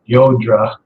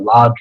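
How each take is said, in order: First: The name begins with a y sound. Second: The name begins with an l and open a. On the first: This is the speaker's own way of saying it. "so I pronounce it Yodra, which I think is correct" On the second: Other people say it this way. "or Ladra"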